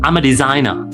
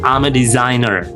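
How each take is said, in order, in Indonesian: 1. Bunyi r di akhir "designer" dihilangkan. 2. Bunyi r di akhir "designer" diucapkan. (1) "kalau British" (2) "But American English dilafalkan"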